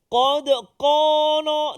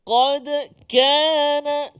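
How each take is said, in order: First: The second word starts with a thick, deep k. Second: The second word starts with a thin, light k. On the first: The speaker calls it wrong. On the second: The speaker calls it right.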